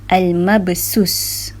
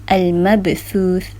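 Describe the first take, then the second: First: The word is said with an s sound. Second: The word is said with a th sound. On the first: The speaker calls it wrong. "Bila kita baca huruf sin, dia akan berbunyi al-mabsus" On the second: The speaker calls it right. "Kalau tha"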